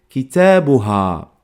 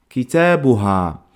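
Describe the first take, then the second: No difference in how they are said.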